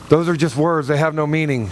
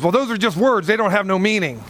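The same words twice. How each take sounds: First: Mocking echo. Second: Woman's dismissive retort. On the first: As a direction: toss her line back at her to tease. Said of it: "I went". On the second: Retold or imitated. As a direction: brush it off as a seatmate would. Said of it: "and she goes".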